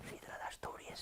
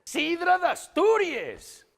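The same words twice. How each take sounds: First: Very soft, whispered aside; barely voiced, intimate mock-confidential hush. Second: Very high, loud, drawn-out cheer; over-the-top celebratory yell; slogan shout. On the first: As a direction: drop to a secretive whisper. Seductive night-out answer, whispered. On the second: Acted. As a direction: bellow it out slowly like a triumphant slogan. Shouted answer, the running slogan.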